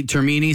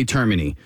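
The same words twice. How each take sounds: First: Termini with MEE stressed, like ter-MEE-nee; stress on middle syllable. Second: Termini with TER stressed, like TER-mih-nee; stress on first syllable. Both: Shown as a demonstration. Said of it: "some people say Termini".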